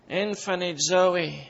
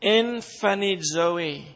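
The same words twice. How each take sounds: First: Emphanizo again, slow and even, falling at the end; Greek word repeated. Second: Emphanizo said slowly, em-FAN-i-zo, ending on a falling tone; Greek word. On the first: Preacher repeating the Greek emphanizo for the congregation, slow. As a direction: repeat emphanizo calmly so it sinks in. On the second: Preacher teaching the congregation the Greek emphanizo, slowly. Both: Shown as a demonstration. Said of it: "The Greek word is this".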